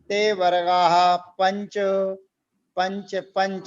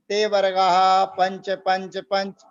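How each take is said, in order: First: A short pause follows the first पंच. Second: All words run together without a pause. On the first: The speaker calls it right. "इस सूत्र का उच्चारण ध्यान रखिएगा" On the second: The speaker calls it wrong. "बहुत से लोग करते हैं"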